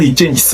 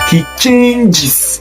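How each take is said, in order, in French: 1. Le verbe se termine sans syllabe supplémentaire 'iz'. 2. Le verbe se termine avec une syllabe supplémentaire 'iz'. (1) "On ne dit pas he changes" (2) "le E S à la fin produira le son is"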